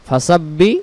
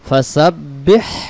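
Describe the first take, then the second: First: The final h sound is left out. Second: The final h sound is clearly pronounced. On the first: The speaker calls it wrong. "তাহলে বলেন তো এই অক্ষরটা আদায় হয়েছে? না।" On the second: The speaker calls it right. "দেখেন এই হাক্ষরটাকে আদায় করতে হবে।"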